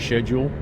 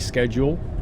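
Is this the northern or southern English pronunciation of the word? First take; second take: southern; northern. First: The word is said the southern English way. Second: The word is said the northern English way. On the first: This is how southerners tend to say it. "People down the south tend to say schedule" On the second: This is how northerners tend to say it. "people up the north of England tend to say schedule"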